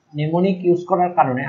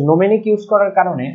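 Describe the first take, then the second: First: Mnemonic said as "ne-mo-nik"; corrected mnemonic pronunciation. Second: Mnemonic said as "no-me-nik"; mispronounced mnemonic. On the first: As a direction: say mnemonic with a silent m, "nemonik". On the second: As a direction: say mnemonic with the vowels swapped, "nomenik". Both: Real, not acted. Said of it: "আমি উচ্চারণটা ভুল করছি".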